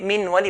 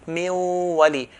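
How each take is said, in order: First: The n is pronounced clearly before the w. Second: The n disappears into a nasalized w. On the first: The speaker calls it wrong. "If we say min wali, we're making idhar, we're making it clear" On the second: The speaker calls it right. "So min wali will be miu"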